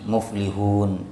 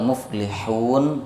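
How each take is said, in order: First: The h is a plain, light breathy sound. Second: The h is a tense sound from the throat. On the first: The speaker calls it wrong. "kebanyakan orang kita ini tidak bersungguh-sungguh dalam makhrajul huruf" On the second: The speaker calls it right. "Yang benar muflihun huruf ha ya"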